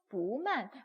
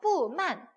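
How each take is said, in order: First: The first syllable has a rising second tone. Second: The first syllable has a falling fourth tone. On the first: The speaker calls it right. "이성으로 바꿨구나" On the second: The speaker calls it wrong. "뿌만 이렇게 읽으면 너무 힘들구나"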